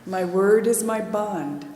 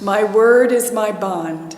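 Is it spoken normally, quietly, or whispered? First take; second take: quiet; normal. First: It is spoken softly in a quiet voice. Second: It is spoken in a normal voice.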